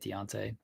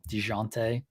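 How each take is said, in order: First: The middle sounds like 'on' without a zh sound. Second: The middle has a 'zh' sound, like 'zhoon'. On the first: The speaker calls it wrong. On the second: The speaker calls it right.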